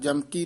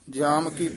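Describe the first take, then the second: First: The two words are run together as one. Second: The two words are kept clearly separate. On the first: The speaker calls it wrong. "ਜਮਕੀ ਨਹੀਂ ਕਹਿਣਾ" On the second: The speaker calls it right. "ਜਾਮ ਕੀ ਵੱਖਰਾ ਹੀ ਪਾਠ ਕਰਨਾ ਹੈ"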